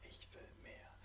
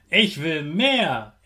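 First: Soft whispered repeat; whispered echo. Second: Said in the usual way. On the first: Shown as a demonstration. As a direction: whisper it back. Repeat-after-me affirmations.

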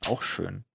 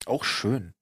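No difference in how they are said.

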